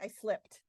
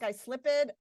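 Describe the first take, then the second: First: The ending joins the verb as one syllable. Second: The ending is said as a separate syllable. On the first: The speaker calls it right. "what do you say?" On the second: The speaker calls it wrong. "Do you say slip ed"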